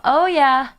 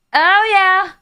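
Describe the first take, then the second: First: Said in the usual way. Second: "Oh, yeah" higher and louder, hyped; playful hype; excited oh yeah. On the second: Shown as a demonstration.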